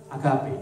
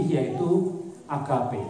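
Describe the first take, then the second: First: Said in the usual way. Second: Agape drawn out very slowly; slow presentation. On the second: Shown as a demonstration.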